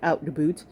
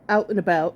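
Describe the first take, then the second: First: It is said in an imitated Canadian accent. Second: It is said in the speaker's ordinary accent.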